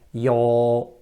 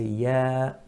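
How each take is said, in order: First: The vowel is thick and heavy. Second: The vowel is thin and light. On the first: The speaker calls it wrong. "We don't say ya, ya, that's thick" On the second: The speaker calls it right. "we say ya muraqqaqa, thin"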